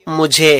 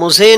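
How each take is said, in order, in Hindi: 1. बीच का व्यंजन j की ध्वनि है। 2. बीच का व्यंजन z की ध्वनि है। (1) "बल्कि वो मुझे है" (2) "जहां जीम आता है वहां पे लोग जा इस्तेमाल करते हैं ... वो मुझे नहीं है"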